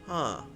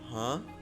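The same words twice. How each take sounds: First: It sounds thoughtful and musing. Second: It sounds like a puzzled question. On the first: The speaker is thinking it over. The speaker calls it right. "It's more of a like pondering kind of tone" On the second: The speaker is asking for clarification. The speaker calls it wrong. "not in a questioning tone"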